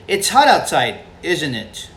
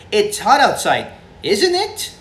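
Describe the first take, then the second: First: "isn't it" dropping at the end; falling tag question. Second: High rise on "isn't it"; "isn't it" climbing high at the end; rising tag question. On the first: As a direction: let "isn't it" fall like a statement. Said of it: "Or do we say". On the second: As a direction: lift "isn't it" sharply upward like a real question. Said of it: "Does it rise up?". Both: Shown as a demonstration.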